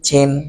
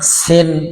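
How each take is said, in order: First: The word begins with a ch sound. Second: The word begins with a hissing s sound. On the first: The speaker calls it wrong. "অনেকে চিন বলে" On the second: The speaker calls it right. "কিছু বাতাস ফ্রি বের করে সিনের উচ্চারণ করতে হবে"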